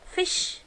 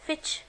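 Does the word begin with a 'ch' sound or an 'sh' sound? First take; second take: sh; ch. First: The word begins with an 'sh' sound. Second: The word begins with a 'ch' sound. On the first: The speaker calls it right. "لا fish" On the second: The speaker calls it wrong. "ما قلتش هنا بقى fish"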